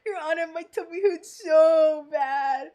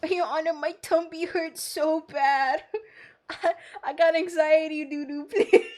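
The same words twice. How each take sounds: First: Loud, hammed-up wail of a sick witness; shouted whiny witness. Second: A hint of a whining witness with a stomachache; whiny nervous witness. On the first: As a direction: yell the complaint at the judge, exaggerated. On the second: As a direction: play it as a nervous witness begging the judge. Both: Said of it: "I'm like, "My tummy hurts really bad".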